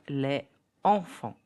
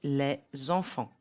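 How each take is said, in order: First: The s of les stays silent before enfants. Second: The s of les links as z to enfants. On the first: The speaker calls it wrong. "and not" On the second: The speaker calls it right. "the pronunciation will be"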